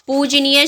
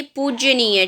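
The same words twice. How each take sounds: First: पूजनीय with a simple J before "neey"; correct pronunciation. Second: पूजनीय slowed, with a heavy J as in पूज्य; slow wrong model of पूजनीय, "poojj-neey"; wrong pronunciation. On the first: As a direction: say "pooj-neey" for पूजनीय, no Y after J. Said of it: "पूजनीय शब्द होता है". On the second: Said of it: "ना कि पूजनीय". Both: Shown as a demonstration.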